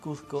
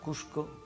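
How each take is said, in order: First: The name is said the Spanish way. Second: The name is said the local Peruvian way.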